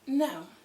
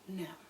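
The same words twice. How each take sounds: First: The word is said with sassy attitude. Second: The word is said plainly, without attitude. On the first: "with a little bit of attitude in it" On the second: "Part your lips and say it with me"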